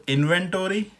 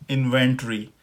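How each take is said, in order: First: इन्वेंटरी as in-ven-tor-ee, higher; American pronunciation. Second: इन्वेंटरी as in-ven-tree, falling; British pronunciation. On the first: Teacher sets two takes side by side, American pronunciation. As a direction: sound the o in इन्वेंटरी. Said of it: "और American हो गई". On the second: Teacher sets two takes side by side, British pronunciation. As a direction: squeeze the end of इन्वेंटरी to tree. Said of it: "जो British pronunciation इसकी है". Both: Shown as a demonstration.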